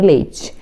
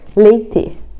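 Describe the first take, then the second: First: The final syllable is said with a 'tchi' sound. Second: The final syllable is said with a plain 't'. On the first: "nem leite" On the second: "Eu falo T mesmo porque é o meu sotaque"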